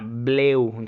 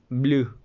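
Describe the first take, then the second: First: The vowel starts with an e sound. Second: The vowel is a plain oo sound. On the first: The speaker calls it wrong. "no suena bleu" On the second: The speaker calls it right. "sino blue"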